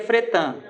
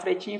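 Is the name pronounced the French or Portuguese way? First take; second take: French; Portuguese. First: The name is pronounced the French way. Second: The name is pronounced the Brazilian Portuguese way. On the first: "a pronúncia seria Fretin, porque é francês" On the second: "no Brasil o pessoal começaram a falar Fretin"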